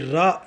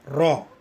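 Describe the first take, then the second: First: The vowel is an open, front 'ah' sound. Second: The vowel is a rounded, back 'aw' sound. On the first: The speaker calls it wrong. "ये रा नहीं है" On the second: The speaker calls it right. "रॉ है"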